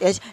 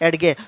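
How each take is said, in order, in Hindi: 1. g से पहले कोई अलग d ध्वनि नहीं बोली जाती। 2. g से पहले अलग d ध्वनि बोली जाती है। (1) "एज ये प्रोनाउंसिएशन है" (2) "अगर मैं इसको ऐसे पढ़ना शुरू कर दूं"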